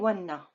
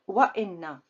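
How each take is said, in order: First: The words run together without a glottal stop. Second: A glottal stop separates the two words. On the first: The speaker calls it wrong. "I cannot say wanna. It's not a word" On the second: The speaker calls it right. "This is the best way and the correct way to pronounce it"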